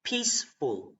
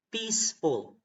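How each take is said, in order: Both takes have the same delivery.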